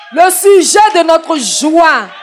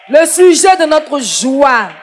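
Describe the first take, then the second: The two takes are said the same way.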